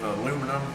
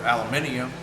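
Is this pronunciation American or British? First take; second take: American; British. First: It is said the American way, four syllables. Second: It is said the British way, five syllables. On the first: "depending on whether you're British or not" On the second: "depending on whether you're British or not"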